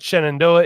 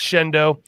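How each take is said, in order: First: The name is said in full. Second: The name is squeezed into a short form. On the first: The speaker calls it wrong. "you know it's not Shenandoah" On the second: The speaker calls it right. "it's Shendo"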